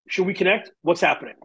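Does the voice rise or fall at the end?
fall. The pitch falls at the end.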